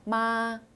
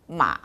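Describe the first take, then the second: First: The pitch stays high and level throughout. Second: The pitch dips low, then rises slightly. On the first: It means mother. "일성의 경우는 높고 균일하게 쭉 발음하시면 됩니다" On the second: It means horse. "삼성의 마, 이렇게 내려갔다가 위로 조금 올라가는 음"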